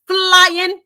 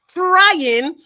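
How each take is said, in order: First: The word begins with an 'fl' sound. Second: The word begins with an 'fr' sound. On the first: The speaker calls it right. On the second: The speaker calls it wrong. "not frying"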